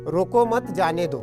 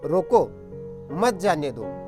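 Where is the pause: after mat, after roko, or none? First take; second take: none; after roko. First: It is said without any pause. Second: There is a pause right after roko.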